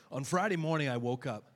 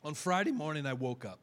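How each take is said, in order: First: Said in the usual way. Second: Voice cracking. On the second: Real, not acted. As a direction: voice cracks mid-sentence. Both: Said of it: "Excuse me, my voice cracked".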